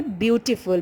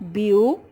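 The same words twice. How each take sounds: First: Said in the usual way. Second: "Beautiful" split into three separate beats; syllable by syllable. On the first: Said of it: "Beautiful is made up of". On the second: Shown as a demonstration. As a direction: count out "Beautiful" as beau - ti - ful, pausing between parts. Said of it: "made up of three syllable".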